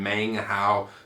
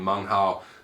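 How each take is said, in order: First: The name is said with English-style sounds. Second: The name is said with Mandarin-style sounds. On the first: The speaker calls it wrong. "instead of saying" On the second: The speaker calls it right. "that's the correct way to pronounce it"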